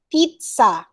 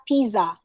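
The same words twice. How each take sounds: First: "Pizza" as PEET-sa; a TS sound inside "Pizza"; correct pronunciation. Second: "pizza" as PEE-za, plain Z; no T in "pizza", just pee-za; wrong pronunciation. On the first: Teacher modelling the right form, peet-sa. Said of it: "It's pizza". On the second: Teacher quoting a mistake, pee-za with Z. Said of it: "It's not pizza". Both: Shown as a demonstration.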